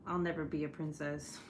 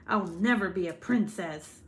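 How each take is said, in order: First: Said in the usual way. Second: Louder, emphatic hint of a villain. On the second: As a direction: declare it like a storybook villain. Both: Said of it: "Now I really do sound like a villain".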